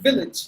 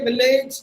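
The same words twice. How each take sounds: First: The second syllable has a short vowel. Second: The second syllable has a long vowel. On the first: The speaker calls it right. "The second half of this word should be with the short sound" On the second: The speaker calls it wrong. "not the long sound"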